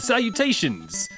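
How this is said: It is said with a British accent.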